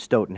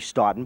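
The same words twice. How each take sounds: First: The name is said in the Wisconsin way. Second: The name is said in the Irish way. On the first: "in Wisconsin, it's always been Stoughton" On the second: "if you were in Ireland, it would be Stoughton"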